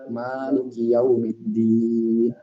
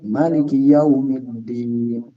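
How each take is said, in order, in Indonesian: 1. Huruf vokal pertama pada Maliki dibaca panjang. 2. Huruf vokal pertama pada Maliki dibaca pendek.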